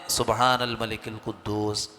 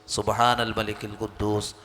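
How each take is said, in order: No difference in how they are said.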